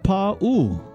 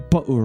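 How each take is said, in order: First: Both vowels are stretched out long. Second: The vowels are said short, not stretched. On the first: The speaker calls it right. "You stretch the Pa and you stretch the U" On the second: The speaker calls it wrong. "so many of us say Pa'u Rider"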